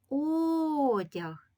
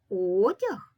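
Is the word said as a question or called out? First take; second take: called out; question. First: The word is called out as if summoning. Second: The word is said with a questioning rise. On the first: "погукати це слово до себе" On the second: "вимовити слово злито з питальною інтонацією"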